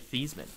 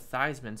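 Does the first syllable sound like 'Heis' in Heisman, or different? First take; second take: different; like Heisman. First: The first syllable does not rhyme with Heisman. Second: The first syllable rhymes with Heis in Heisman. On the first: This is the original version of the name. "I think it's actually Theismann" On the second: This is the changed version of the name. "so it sounded like Heisman"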